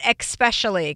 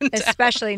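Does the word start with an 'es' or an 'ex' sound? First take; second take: ex; es. First: The word begins with an 'ex' sound. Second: The word begins with a plain 'es' sound. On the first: The speaker calls it wrong. "Not especially" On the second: The speaker calls it right. "they are S's"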